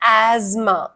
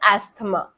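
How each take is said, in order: First: The middle sounds like a 'z' with no 'th'. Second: The middle has an 's' followed by 'th'. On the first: The speaker calls it right. "एजमा, not एस्थमा" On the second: The speaker calls it wrong. "ये सबसे ज्यादा commonly मिसप्रोनाउंस्ड word है"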